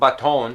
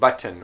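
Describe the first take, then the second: First: The second vowel is a full O sound. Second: The second vowel is a reduced schwa. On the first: The speaker calls it wrong. "It's not baton" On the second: The speaker calls it right. "which is a, a, what we call a schwa"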